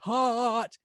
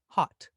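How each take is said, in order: First: The vowel is long and drawn out. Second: The vowel is short and clipped. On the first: Something is really hot. "unless something is really hot" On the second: Said in normal circumstances. "Notice that the ot in hot is quite short"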